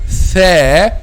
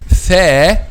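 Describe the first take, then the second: The two takes are said the same way.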